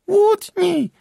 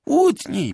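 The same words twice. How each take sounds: First: Very high, loud piercing cry; shrill squeak. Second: High, loud repeated demand; insistent plea. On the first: Magda in the darkened tavern, shrill cry. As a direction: screech it from the dark. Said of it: "piskliwy głos Magdy". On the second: Magda daring Bartek in the tavern, insistent. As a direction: keep nagging him to strike. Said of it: "powtarzała Magda". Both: A narrator's reading.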